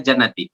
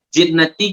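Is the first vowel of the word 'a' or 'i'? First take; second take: a; i. First: The first vowel is an 'a' sound. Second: The first vowel is an 'i' sound. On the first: The speaker calls it wrong. "kita baca jannati" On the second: The speaker calls it right.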